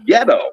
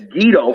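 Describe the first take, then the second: First: The first vowel sounds like 'eh'. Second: The first vowel sounds like 'ee'. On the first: This is the corrected pronunciation. The speaker calls it right. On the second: This is how people said it before being corrected. The speaker calls it wrong. "it's Guido for a little bit until Mike Tenay comes out and corrects everybody"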